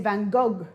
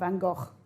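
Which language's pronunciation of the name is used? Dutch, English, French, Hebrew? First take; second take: French; Hebrew. First: The name is said the French way. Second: The name is said the Hebrew way. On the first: "In French" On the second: "and Hebrew too"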